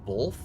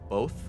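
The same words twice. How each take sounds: First: It is said with an L sound. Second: It is said without an L sound. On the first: The speaker calls it wrong. "like B O L T H" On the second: The speaker calls it right. "like B O T H"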